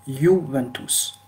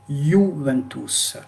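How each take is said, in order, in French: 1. Le mot commence par un son 'y'. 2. Le mot commence par un son 'y'.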